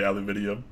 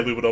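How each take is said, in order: First: The word ends in 'nium', with five syllables. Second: The word ends in 'num', with four syllables. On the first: This is how the other person says it. "obviously you say aluminium" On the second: This is how the speaker himself says it. "because I say aluminum"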